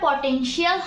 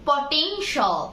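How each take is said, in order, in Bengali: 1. শেষ অংশটি 'shee-al' হিসেবে বলা হয়। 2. শেষ অংশটি 'shal' হিসেবে বলা হয়। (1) "এটা পটেনশিয়াল হবে না" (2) "এটা হবে"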